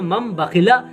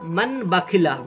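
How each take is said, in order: First: The first word ends with an m sound. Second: The first word ends with an n sound. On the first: This is how it is read. The speaker calls it right. "यहाँ पर मम बखिला" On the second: This is how it is written. The speaker calls it wrong. "जैसे लिखा हुआ है मन बखिला"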